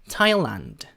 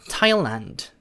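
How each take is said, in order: Both takes have the same delivery.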